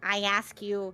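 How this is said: It is said in a strained, put-on character voice. The speaker calls it right.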